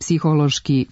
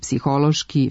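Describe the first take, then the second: First: The stress falls on the first syllable. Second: The stress falls on the second syllable. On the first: The speaker calls it wrong. "naglasak prenesu na prvi slog" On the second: The speaker calls it right. "na trećem slogu s kraja reči"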